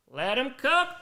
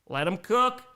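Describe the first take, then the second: First: Hyped. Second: Said in the usual way. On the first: Shown as a demonstration. Repeated, higher second take.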